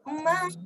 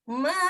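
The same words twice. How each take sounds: First: The vowel is held for the longest time. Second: The vowel is held noticeably longer. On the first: "Lebih panjang lagi" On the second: "Kalau panjang lagi"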